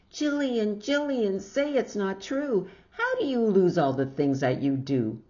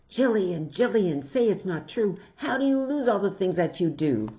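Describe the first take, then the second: First: High, louder mock shout of a fussing mother; hammed-up mother scolding; imitated mother's shout. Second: Imitated shout. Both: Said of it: "then she'll wake up and shout".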